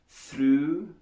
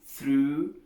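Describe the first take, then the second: No difference in how they are said.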